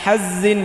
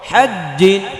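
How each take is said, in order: First: The middle 'j' sound is weak and short. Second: The middle 'j' sound is strong and doubled. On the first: The speaker calls it wrong. "এটা হাজিন বলা যাবে না" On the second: The speaker calls it right. "জিম জিপার মধ্যখানে উপরে লাগিয়ে"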